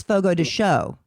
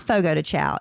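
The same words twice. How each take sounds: First: Chao pronounced shoh, Portuguese style. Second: Chao pronounced chow like chowder. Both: Shown as a demonstration. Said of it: "It's not Fogo de Chao".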